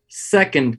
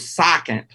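First: The first vowel is the usual 'e' sound. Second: The first vowel sounds like the 'a' in sack. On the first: The speaker calls it right. "That's how you say it" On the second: The speaker calls it wrong. "like sack, S-A-C-K"

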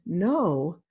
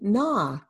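First: The vowel is said long. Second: The vowel is said short. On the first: The speaker calls it wrong. "they may want to say on, no" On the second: The speaker calls it right. "we want to teach them na. So we want to maintain the short vowel sound"

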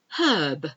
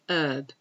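First: The word begins with an audible H sound. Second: The word begins with no H sound. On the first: This is the British way of saying it. "But we do pronounce the H" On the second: This is the American way of saying it. "in American English, they usually say herb"

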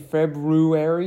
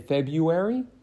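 First: The first R is pronounced clearly. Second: The first R is dropped entirely. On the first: "you don't say February" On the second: "you say February"

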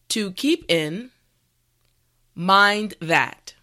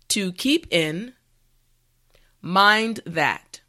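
Both takes have the same delivery.

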